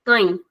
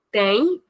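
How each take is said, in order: First: Tem said with a closed, shortened vowel; closed short vowel. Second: Said in the usual way. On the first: Shown as a demonstration. Teacher repeating the plural form, closed tem. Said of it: "shortening the sound of the vowel". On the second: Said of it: "it's the normal sound".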